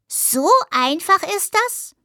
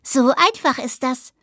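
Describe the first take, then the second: First: High, slow, rising wonder; delighted amazement in a high voice; enraptured question. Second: Pleased answer with an audible grin; lightly smug, matter-of-fact reply; grinning confirmation. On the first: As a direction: ask it with drawn-out delight, lifting high. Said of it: "fragte Husch verzückt". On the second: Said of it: "grinste Ottilie". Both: A narrator's reading.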